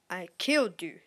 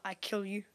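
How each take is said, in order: First: "killed" said with a clear ending; correct past tense. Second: "kill" with no past ending, softer; ungrammatical present tense. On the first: Gamer fixing their own grammar, correct past tense. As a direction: sound out the end of "killed". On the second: Gamer quoting their own bad English, ungrammatical present tense. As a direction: drop the ending from "kill", said softly. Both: Shown as a demonstration. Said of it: "that's not proper English".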